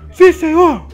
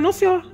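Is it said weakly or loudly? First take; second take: loudly; weakly. First: It is said loudly, almost shouting. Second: It is said weakly and quietly.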